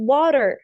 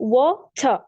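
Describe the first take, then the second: First: It is said in an American accent. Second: It is said in a British accent. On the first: "तो हम इसको क्या पढ़ते हैं American में?" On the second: "तो ब्रिटेन वाले अ, पानी को पढ़ते हैं"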